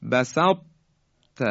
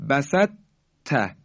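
First: بسط with a heavy held ط, released after a pause as light ت; heavy closure on ط opening into ت; correct incomplete merging. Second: بسط ت with the ط turned into a light doubled ت; light, quick merge of ط into ت in بسط ت; wrong complete merging. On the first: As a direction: keep the thick ط in بسط, don't bounce it, then ت. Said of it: "به این شکل باید بگیم". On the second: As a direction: lose all heaviness in بسط, land on a plain doubled ت. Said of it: "یعنی ت رو مشدد کنیم". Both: Shown as a demonstration.

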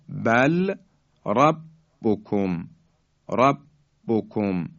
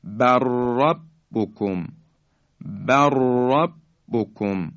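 First: "بل ربکم" as bal, pause, rabbukum; slow "ربکم", detached from "بل"; lam kept separate. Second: "بر ربکم" joined as bar-rabbukum; slow "بر ربکم", no lam, strong ra; lam merged into ra. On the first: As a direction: sound the ل of "بل" before "ربکم". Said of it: "لام ساکن". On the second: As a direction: roll a long doubled ر in "بر ربکم". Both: Shown as a demonstration.

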